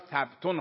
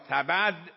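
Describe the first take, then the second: First: No vowel is heard between the b and t. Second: A vowel is heard between the b and t.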